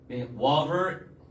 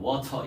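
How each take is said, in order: First: It is said with an American accent. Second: It is said with a British accent. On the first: Local listeners often fail to understand it. "water 이렇게 하면 잘 못 알아듣는단 말이에요" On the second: Local listeners understand it more easily. "영국식으로 할 때가 종종 있어요"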